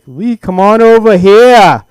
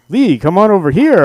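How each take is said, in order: First: It is said with a Boston accent. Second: It is said in a neutral announcer voice. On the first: He is talking the way he normally does. "It was more like" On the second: He is putting on his broadcaster voice. "when he wasn't going"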